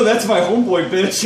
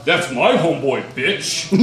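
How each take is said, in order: First: Tough-guy retort. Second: A touch lower, mocking copy of the comeback; mocking the retort. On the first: Retold or imitated. Narrator to the brawler, a cocky half-shouted comeback. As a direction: snap it back at the big guy to defend your buddy. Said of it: "I just go". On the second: Brawler pinning the narrator, a lightly voiced smug echo. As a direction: throw his own line back at him, smug. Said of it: "and he's like".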